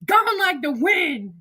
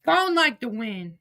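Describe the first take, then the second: First: Slow, high sing-song gone like the wind; high drawn-out taunt; mock farewell. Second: Said in the usual way. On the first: Real, not acted. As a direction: draw it out teasing. Repeats taunt.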